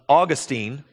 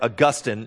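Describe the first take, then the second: First: The name is pronounced in the common, everyday way. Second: The name is pronounced in the pretentious, seminary way.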